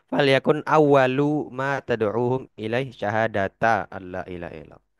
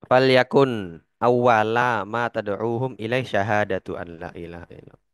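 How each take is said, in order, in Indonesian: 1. Syahadat berakhir dengan vokal 'a'. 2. Syahadat berakhir dengan vokal 'u'. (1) "atau al-aks atau nasab" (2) "boleh dibaca dengan rofa syahadatu dengan dhammah"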